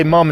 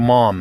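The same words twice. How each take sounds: First: "mum" with a short uh vowel; Pittsburgh pronunciation of "mum", uh for ah. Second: Said in the usual way. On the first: Shown as a demonstration. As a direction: say "mum" as Pittsburghers do, rhyming with "gum". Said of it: "We also say mum instead of mom". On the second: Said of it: "instead of mom".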